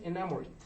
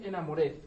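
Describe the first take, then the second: First: The ending -ed adds no extra syllable. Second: The ending -ed is sounded as an extra syllable. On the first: The speaker calls it right. "no suena la ed, entonces solamente es enamored" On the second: The speaker calls it wrong. "muchos pueden decir es enamored y no"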